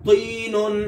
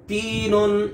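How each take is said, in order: First: तीनुन with a thick, heavy तो; full jerked to in तीनुन; heavy emphatic to. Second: तीनुन with a light, thin ता. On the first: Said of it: "दूसरे में तो है". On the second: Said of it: "पहले में ता है". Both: Shown as a demonstration.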